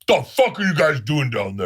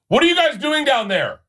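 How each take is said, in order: First: It is said harshly in an angry voice. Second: It is said lightly in a high friendly voice.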